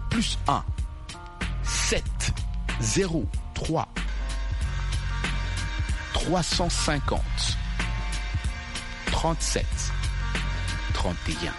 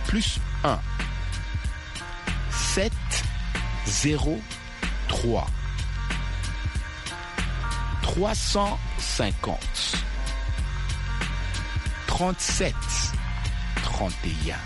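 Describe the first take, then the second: First: The number is read at a quick pace. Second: The number is read at a slow pace. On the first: "tu dis ça toujours vite" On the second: "Je répète lentement"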